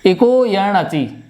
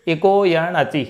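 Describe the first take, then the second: First: Slow, deliberate इको यण अचि; deliberate sutra recital; sutra recitation. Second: Slow chanted इको यण अचि; slow sutra chant; sutra recitation. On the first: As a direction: intone the sutra slowly. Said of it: "यण संधि भी अच्छे से समझ में आ जाएगी". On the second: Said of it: "जैसे". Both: Shown as a demonstration.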